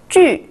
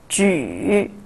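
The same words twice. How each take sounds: First: The pitch falls sharply from high. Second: The pitch dips low, then rises.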